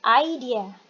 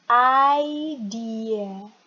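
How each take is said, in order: First: "idea" said quickly as one word; faster demo. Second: "idea" drawn out very slowly and loud; slow demo. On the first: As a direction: model "idea" briskly for learners. ("idea" diucapkan lebih cepat) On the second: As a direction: stretch "idea" out for learners to copy. ("idea" diucapkan pelan dan panjang) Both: Shown as a demonstration. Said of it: "Yo, faster".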